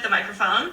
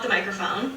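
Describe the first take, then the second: First: Less background room noise is heard. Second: More background room noise is heard. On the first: "here's with the microphone. I think there's less like noise" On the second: "here's without the microphone"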